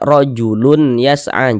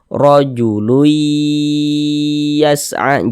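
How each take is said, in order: First: The n is heard clearly before the y. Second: The n blends into a nasal, held y. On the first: The speaker calls it wrong. "jangan dibaca" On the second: The speaker calls it right. "Jadi dibaca"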